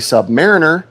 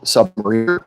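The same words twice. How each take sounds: First: It is said as sub plus mariner. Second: It is said as submarine plus -er. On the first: It implies being below a mariner. The speaker calls it wrong. "if you say submariner is kind of to us a little bit derogatory" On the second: It means someone who serves on submarines. The speaker calls it right. "I much prefer to be called submariner because I'm not below a mariner"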